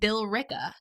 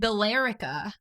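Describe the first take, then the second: First: The name is said the local way. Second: The name is said as its letters read. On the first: This is how residents actually say it. "but we call it Billerica" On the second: This is how the written name looks. "It's spelled Billerica"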